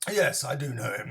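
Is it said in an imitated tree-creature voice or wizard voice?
wizard. It is said in an imitated old wizard's voice. The speaker calls it wrong. "I did my Gandalf voice there"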